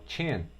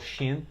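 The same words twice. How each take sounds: First: It starts with a 't'-like 'ch' sound. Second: It starts with a soft 'sh' sound. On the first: The speaker calls it right. "como se a palavra começasse com um T" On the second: The speaker calls it wrong. "Eu não falo chin"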